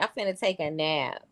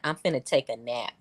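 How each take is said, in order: First: It is said in an exaggerated, dainty voice. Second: It is said in a plain, ordinary voice. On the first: "That sound real prissy"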